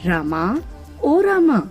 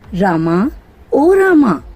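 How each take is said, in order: First: The name is called at normal, quiet volume. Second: The name is called louder than before.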